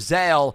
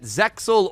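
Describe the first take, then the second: First: The X is not pronounced at all. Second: The X is pronounced as a ks sound. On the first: This is the original version's pronunciation. "the X actually is silent" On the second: This is the English dub's pronunciation. "make the X an actual sounding letter"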